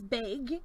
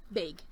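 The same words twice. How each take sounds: First: "beg" with a short e, as in leg; Allison's accent on beg. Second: Said in the usual way. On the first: Retold or imitated. Host imitating how Allison says "beg". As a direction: say "beg" the way Allison's accent makes bag sound. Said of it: "I really enjoy when Allison says". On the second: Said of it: "Yes, bag".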